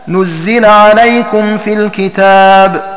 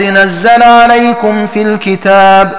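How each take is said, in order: First: The verb is read nuzzila, with u and i. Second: The verb is read nazzala, with a-vowels. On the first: The verb is passive: it was sent down. "بضم النون وكسر الزاي" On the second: The verb is active: God sent it down. "بفتح ضم النون وفتح كسر الزاي"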